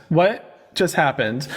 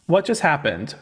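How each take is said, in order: First: WHAT stretched long, then a pause before "just happened"; slow disbelief. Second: Said in the usual way. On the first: Real, not acted. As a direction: drag out WHAT, baffled. Baffled repeat, drawn out.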